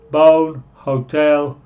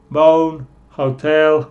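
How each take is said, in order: Both takes have the same delivery.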